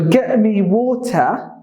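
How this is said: The t in water is a clear t. "That is the British English"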